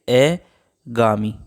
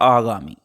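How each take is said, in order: First: The word begins with an 'e' vowel. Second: The word begins with a long 'aa' vowel. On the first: The speaker calls it wrong. "तो ये शब्द हमारा गलत है" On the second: The speaker calls it right. "ए की जगह क्या आना चाहिए था... आ"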